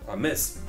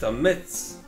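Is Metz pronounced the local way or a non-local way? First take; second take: local; non-local. First: Metz is pronounced the local Lorraine way. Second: Metz is pronounced the usual non-local way.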